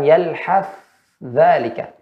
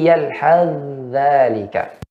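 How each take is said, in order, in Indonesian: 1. Bunyi th diucapkan jelas dan terpisah. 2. Bunyi th menyatu ke dh yang mengikutinya. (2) "membacanya dengan idgham tanpa dengan dijelaskan pada huruf tsanya"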